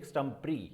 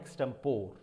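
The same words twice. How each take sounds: First: Extempore ending in "pree"; British pronunciation. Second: Extempore ending in "pore"; wrong pronunciation. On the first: Teacher giving the British form, extempore as "eks-tem-pree". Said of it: "British के हिसाब से". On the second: Teacher repeating what is wrong, extempore as "eks-tem-pore". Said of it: "this is not extempore". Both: Shown as a demonstration.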